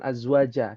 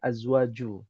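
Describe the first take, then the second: First: The word ends with an 'a' vowel. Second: The word ends with a 'u' vowel. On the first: The speaker calls it wrong. "bukan azwaja" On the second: The speaker calls it right. "tapi azwaju"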